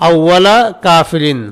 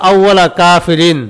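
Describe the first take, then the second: Both takes have the same delivery.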